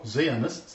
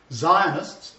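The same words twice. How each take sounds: First: "Zionists" with a first syllable like "zee"; long "ee" vowel opening "Zionists"; alternative pronunciation. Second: "Zionists" with a first syllable like "zye"; long "eye" vowel opening "Zionists"; pronunciation variant. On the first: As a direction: say "Zionists" as ZEE-uh-nists, drawn out. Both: Shown as a demonstration. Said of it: "depending where you come from".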